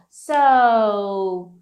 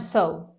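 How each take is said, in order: First: The word is drawn out with a hesitant tune. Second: The word is short and clipped. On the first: The speaker calls it right. "Olha a entonação, ó. So" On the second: The speaker calls it wrong. "não so"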